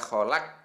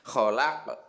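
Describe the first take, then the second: First: The final q stops flat without an echo. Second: The final q bounces with a short echo. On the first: The speaker calls it wrong. "jadi tidak boleh dibaca kholaq" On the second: The speaker calls it right. "Harus ada ke-nya itu"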